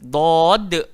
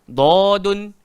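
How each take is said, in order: First: The word ends on a bare d consonant. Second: The word ends with an added 'un' sound. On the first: The speaker calls it right. "kita baca" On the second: The speaker calls it wrong. "Kita tak baca dadun"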